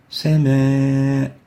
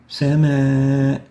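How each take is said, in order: First: The vowel is light and thin. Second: The same.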